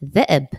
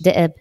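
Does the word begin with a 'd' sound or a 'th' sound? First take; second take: th; d. First: The word begins with a soft 'th' sound. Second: The word begins with a plain 'd' sound. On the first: The speaker calls it right. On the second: The speaker calls it wrong.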